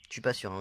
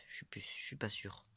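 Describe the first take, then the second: First: Said in the usual way. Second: A soft unvoiced whisper, half to himself; whispered aside. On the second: Real, not acted. Showing his finds, he whispers his doubt to himself. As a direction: breathe it out as an unsure aside.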